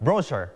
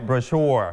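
First: "brochure" as BRO-sher, first syllable stressed; British stress on first syllable. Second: "brochure" with the second syllable stressed, bro-SHURE; American stress on second syllable. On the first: Teacher repeats the British reading, "brochure" stressed on BRO. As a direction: hit BRO, reduce the ending of "brochure". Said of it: "คนอังกฤษเขาจะเน้นที่พยางค์แรก". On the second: Teacher points out the highlighted syllable, "brochure" stressed on SHURE. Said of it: "พยางค์ที่สอง สีชมพูที่ครูเน้นไว้". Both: Shown as a demonstration.

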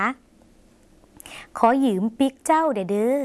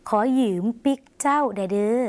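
First: Very slow whisper, rising at the end; slow whispered demo. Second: Slowed, voiced repeat; slow demo. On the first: Teacher models the Lao phrase for viewers, very slow and whispered. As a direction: whisper ขอยืมปิกเจ้าเด้อเด้อ syllable by syllable. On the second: Teacher repeats the Lao phrase for viewers, slow and voiced. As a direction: say ขอยืมปิกเจ้าเด้อเด้อ slowly in a full voice. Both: Shown as a demonstration. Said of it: "หมายถึง".

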